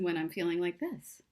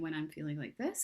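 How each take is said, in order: First: The voice sounds upbeat, energetic and confident. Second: The voice sounds low, flat and dejected. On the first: The speaker feels sure and positive. The speaker calls it right. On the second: The speaker feels down and unsure. The speaker calls it wrong.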